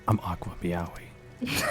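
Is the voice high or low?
low. It is said in a lower character voice. This is the put-on character persona. "I do not go that low for that"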